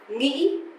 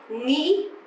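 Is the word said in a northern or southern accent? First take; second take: northern; northern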